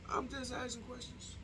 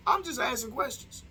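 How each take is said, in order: First: High and very soft; small mock-innocent voice. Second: High-pitched put-on innocence; mock innocent. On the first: Vlogger backing away from his question, tiny innocent voice. Same disclaimer repeated, much softer. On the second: Vlogger fending off backlash from viewers, high mock-innocent voice. Feigned innocence after provocative question.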